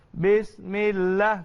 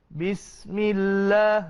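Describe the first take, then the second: First: The s sound is blunt and weak. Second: The s sound is sharp with audible air. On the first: The speaker calls it wrong. "bunyi tumpul. Bismillah tak cukup" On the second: The speaker calls it right. "Ha, baru boleh"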